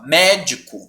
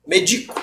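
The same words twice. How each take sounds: First: MÉDICO slowly, first syllable lengthened; stress on MÉ. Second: MEDICO with the middle syllable stressed. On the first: Teacher voicing the student's misreading, médico stressed slowly on MÉ. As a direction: say MÉÉ-dico, the familiar noun. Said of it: "você vai falar assim". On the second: Teacher reading out the trick exam word, medico stressed on DI. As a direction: say me-DI-co, the verb form. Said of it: "aí ele põe essa palavra". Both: Shown as a demonstration.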